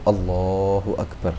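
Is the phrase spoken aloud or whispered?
aloud. The phrase is spoken with a voiced tone. "cukup Allahu Akbar"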